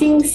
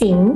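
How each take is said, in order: First: The pitch stays high and level. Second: The pitch rises from mid to high.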